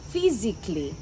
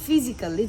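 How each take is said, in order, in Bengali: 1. 'ly'-এর আগে 'al' সিলেবলটি বাদ যায়। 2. 'ly'-এর আগে বাড়তি 'al' সিলেবলটি উচ্চারণ করা হয়। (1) "এটা হবে" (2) "যেটাকে আমরা বলি"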